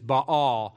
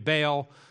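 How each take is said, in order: First: The name has its standard scholarly pronunciation. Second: The name has a local regional pronunciation. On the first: "the right pronunciation is Baal" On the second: "that's how we say it here in Virginia"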